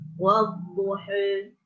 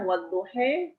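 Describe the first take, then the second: First: The final vowel is between a and e. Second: The final vowel is tilted fully toward e.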